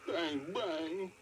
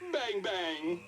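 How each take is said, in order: First: It is said in a sad tone. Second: It is said in a happy tone.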